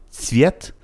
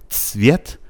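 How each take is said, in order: The two takes are said the same way.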